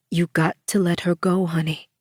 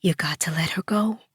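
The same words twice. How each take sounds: First: Gentle coaxing. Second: Softer, whispered coaxing; gentle whisper. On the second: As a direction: coax her in a hush. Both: A narrator's reading. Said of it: "she gently coaxed".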